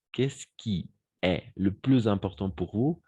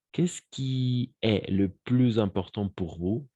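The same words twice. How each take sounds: The two takes are said the same way.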